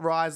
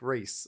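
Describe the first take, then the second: First: The vowel sounds like 'eye', rhyming with fries. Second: The vowel sounds like 'ee', rhyming with geese. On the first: The speaker calls it wrong. "It's not Rise like fries" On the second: The speaker calls it right. "It's Reese like Reese"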